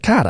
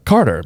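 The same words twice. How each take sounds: First: Imitated East Boston accent, "Carter" as "Cah-tah"; Boston-accented "Cahtah"; heavy Boston accent. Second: Said in the usual way. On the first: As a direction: mimic a Bostonian dropping both Rs. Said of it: "Your accent's a little heavy". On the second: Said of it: "she'll say a word".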